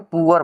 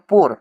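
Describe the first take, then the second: First: It is said as 'poo-er' with a short oo. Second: It is said as one 'pore' sound. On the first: The speaker calls it right. "इसको हम लोग क्या बोलेंगे? पुअर बोलेंगे।" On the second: The speaker calls it wrong. "तो ये पोर जो है तो ये गलती है"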